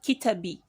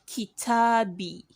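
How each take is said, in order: First: The vowel is kept short. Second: The vowel is held long. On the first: The speaker calls it wrong. "and not Kitabi" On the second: The speaker calls it right. "Kitabi, ... because of the mud"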